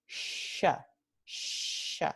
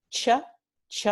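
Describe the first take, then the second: First: "sh" as a drawn-out hushing fricative; weakened ch. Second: "ch" sounded alone as in muchacho; a crisp stop-then-hiss "ch", twice; affricate ch. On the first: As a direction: let "sh" hiss with no t at the start. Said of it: "Luego el debilitamiento". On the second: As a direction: demonstrate the unweakened "ch" consonant. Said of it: "la africada sorda". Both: Shown as a demonstration.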